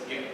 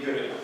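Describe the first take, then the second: First: The word ends without the final schwa. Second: The word ends with a final schwa vowel. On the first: This is the usual form in running speech. "most of the time it's realized as ge" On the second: This is the careful citation form. "they will say guru, like that"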